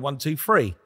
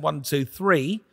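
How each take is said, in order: First: It is counted in a South London accent. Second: It is counted in a more neutral accent. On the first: "I'm from South London. So I, ... I would go" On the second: "which I do now"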